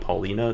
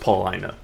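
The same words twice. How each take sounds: First: The 'i' is not said as a long I. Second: The 'i' is said as a long I. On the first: The speaker calls it wrong. "what most people pronounce it as" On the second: The speaker calls it right. "with the long I sound"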